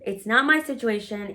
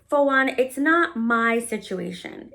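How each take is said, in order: First: "my" stressed, the rest even. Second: "not" pressed, slow and firm; stress on not. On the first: Repeating it isn't her situation, stress on "my". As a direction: hit "my" and let "situation" fall. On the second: Telling him it isn't her problem, stress on "not". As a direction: lean on the word "not". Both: Shown as a demonstration.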